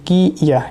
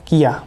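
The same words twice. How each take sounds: First: "কি ইয়া" said as two separate parts, ki, then iya; separate syllables. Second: "কিয়া" run together as one word, kiya; joined sound. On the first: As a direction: keep "কি" and "ইয়া" apart. ("কি ইয়া" আলাদা আলাদা করে উচ্চারণ) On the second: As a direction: blend ki and iya into "কিয়া". ("কিয়া" একসাথে যুক্ত করে উচ্চারণ) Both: Shown as a demonstration. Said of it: "উচ্চারণটা একটু দেখাই".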